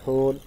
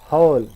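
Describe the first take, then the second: First: The vowel stays as one steady o sound. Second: The vowel glides from schwa toward oo. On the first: The speaker calls it wrong. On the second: The speaker calls it right.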